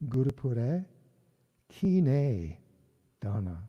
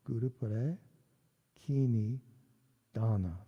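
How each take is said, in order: First: The middle word has an ay-like vowel. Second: The middle word lacks the ay-like vowel. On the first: The speaker calls it right. "There we go. ... a almost A Y kind of sound" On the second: The speaker calls it wrong. "Oh, I messed up again"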